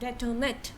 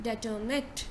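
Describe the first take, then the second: No difference in how they are said.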